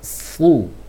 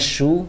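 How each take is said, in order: First: The syllable starts with a thick s sound. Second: The syllable starts with a sh sound. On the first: The speaker calls it right. "tapi su" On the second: The speaker calls it wrong. "Jangan shu"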